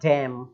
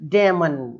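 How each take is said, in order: First: The word ends on an m sound. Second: The word ends with an added n sound. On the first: The speaker calls it right. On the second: The speaker calls it wrong.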